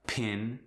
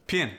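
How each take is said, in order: First: Said in the usual way. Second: South African "pin" with an ee vowel; South African accent. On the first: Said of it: "For instance". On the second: Shown as a demonstration. Teaching vowels before N, South African "pin". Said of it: "it gets the E sound".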